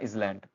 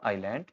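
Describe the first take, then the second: First: A z sound is heard before the l. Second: No z sound is heard before the l. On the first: The speaker calls it wrong. "ये इजलैंड नहीं है" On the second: The speaker calls it right. "ये है आपका आइलैंड"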